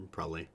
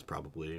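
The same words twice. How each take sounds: First: "probably" with the b's rolled lightly together. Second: Said in the usual way. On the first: Shown as a demonstration. Streamer showing the common version, "probably" with a little roll of the B. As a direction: blur the middle of "probably". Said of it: "a little roll of the B". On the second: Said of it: "Everybody kinda says".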